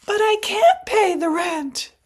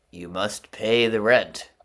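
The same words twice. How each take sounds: First: High, loud, pleading damsel; damsel in distress. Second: Slow, loud, sneering villain; sneering panto villain. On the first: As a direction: wail it like a helpless maiden. Melodrama heroine pleading. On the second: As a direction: twirl the moustache and demand it. Melodrama villain demanding rent. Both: Acted.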